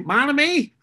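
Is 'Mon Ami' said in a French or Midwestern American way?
Midwestern. It is said with a Midwestern American pronunciation.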